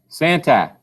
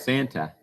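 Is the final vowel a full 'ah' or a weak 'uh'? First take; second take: full ah; weak uh. First: The final vowel is a full open 'ah'. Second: The final vowel is a weak, reduced 'uh'. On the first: The speaker calls it wrong. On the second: The speaker calls it right.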